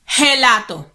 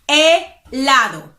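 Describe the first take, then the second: First: The word starts with a breathy consonant sound. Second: The word starts directly with a vowel sound. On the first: The speaker calls it wrong. "Don't you ever say gelato. No, no, no" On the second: The speaker calls it right. "Don't pronounce the H"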